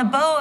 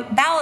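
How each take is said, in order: First: "bow" said to rhyme with "go"; mispronounced bow. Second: "bow" said to rhyme with "cow"; corrected bow. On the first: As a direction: slip and say "bow" like the bow of an archer. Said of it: "bow of the boat". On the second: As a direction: fix it, saying "bow" like bowing down. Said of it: "the bow of the bow of the boat". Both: Real, not acted.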